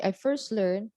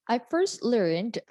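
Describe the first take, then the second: First: LEARNED said as "learn", no final d; dropped past ending. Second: LEARNED slow, with the final d clearly released; stressed past form. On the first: Teacher showing the wrong answer, LEARNED without its d ending. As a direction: swallow the d of LEARNED so it sounds present. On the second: Teacher modelling the correct answer, stressed LEARNED with a clear ending. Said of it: "So you have to stress the word". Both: Shown as a demonstration.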